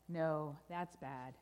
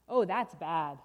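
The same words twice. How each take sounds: First: Low, slow contradiction; ominous correction. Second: Loud, low groan of dismay; dismayed refrain. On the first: Storyteller overturns the good news, low and grave. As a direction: let the bad news sink in, slowly. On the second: Storyteller reacts to burst balloon, loud dismay. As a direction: lament the bad news heavily. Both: Acted.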